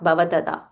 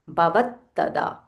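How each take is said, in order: First: The middle t is short and runs straight on. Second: The middle t is held and stressed more. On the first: The speaker calls it wrong. "not bhavatada" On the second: The speaker calls it right. "whenever there is half letter, we have to stress a little more"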